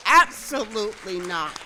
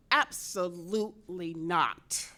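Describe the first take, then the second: First: Absolutely not, much louder and punched; forceful loud repeat; emphatic. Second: Absolutely not, slow and measured, at normal level; calm deliberate no; steady slow refusal; firm. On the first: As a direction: slam the answer home. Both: Acted.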